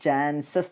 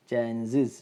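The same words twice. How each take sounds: First: "chances" said as "chan-sas", open a in the last syllable; the local way, "chances" ending in -sas; common mispronunciation. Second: "chances" said as "chan-siz", short i in the last syllable; corrected model, "chances" ending in -siz. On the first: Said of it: "എന്നാണ് നമ്മൾ പറയുക". ("chances" എന്നത് "ചാൻസസ്" എന്ന്) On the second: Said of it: "it has to be pronounced as". ("chances" എന്നത് "ചാൻസിസ്" എന്ന്) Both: Shown as a demonstration.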